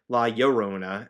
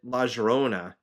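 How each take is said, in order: First: The double L sounds like a Y. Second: The double L sounds like a J. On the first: The speaker calls it right. "my class brought up La Llorona. I'm like, you know, that makes sense" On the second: The speaker calls it wrong. "I pronounced it La Llorona uh, for the longest time"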